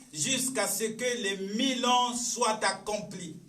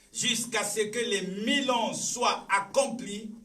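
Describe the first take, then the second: No difference in how they are said.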